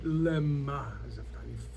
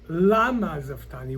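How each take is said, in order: First: The first word has the vowel 'e'. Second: The first word has the vowel 'a'. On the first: It asks for what purpose this happened. "could be read Lema Zaftani" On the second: It asks why this happened. "we could read the same word"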